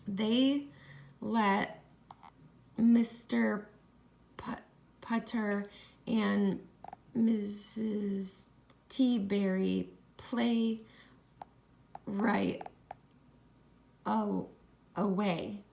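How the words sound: The reading is choppy, with uneven breaks. The speaker calls it wrong. "my reading voice wasn't very smooth"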